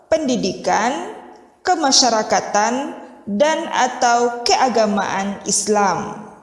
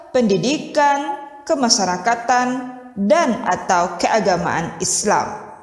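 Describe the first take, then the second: No difference in how they are said.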